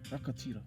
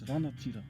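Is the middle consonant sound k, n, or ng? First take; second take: k; n. First: The middle consonant is a k sound. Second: The middle consonant is an n sound. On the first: This is how some southern tribes say it. "change the ng sound to k" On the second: This is how some eastern tribes say it. "preferring a n sound"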